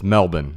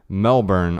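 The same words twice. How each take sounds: First: It is pronounced the Australian way. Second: It is pronounced the American way. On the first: "in Australia, it's Melbourne" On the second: "what I would say"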